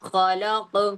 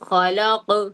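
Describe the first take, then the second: No difference in how they are said.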